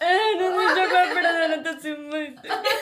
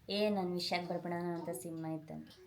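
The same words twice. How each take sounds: First: It is said while crying. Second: It is said in a sad, upset tone.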